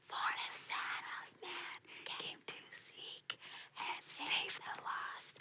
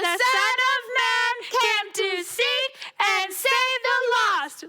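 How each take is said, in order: First: It is said very quietly. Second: It is said very loudly.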